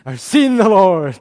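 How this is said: It is said with excited delight.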